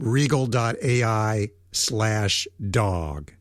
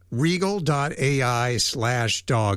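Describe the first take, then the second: First: The phrase is said slowly. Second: The phrase is said quickly. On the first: The speaker calls it right. "I'll say it one more time" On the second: The speaker calls it wrong. "I know I said it too fast"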